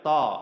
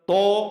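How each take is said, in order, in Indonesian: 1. Bunyi t itu tebal dan berat. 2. Bunyi t itu polos dan ringan. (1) "Tapi to. ... tonya Al-Qur'an" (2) "Tapi kalau to juga bukan"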